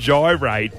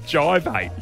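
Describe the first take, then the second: First: The middle consonant is an R sound. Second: The middle consonant is a V sound. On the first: The speaker calls it right. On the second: The speaker calls it wrong.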